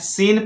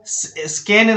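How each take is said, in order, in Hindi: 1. s के बाद k की कोई ध्वनि सुनाई नहीं देती। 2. s के बाद k की ध्वनि उच्चारित होती है। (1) "सीन पर" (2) "स्कैन नहीं पढ़ना है"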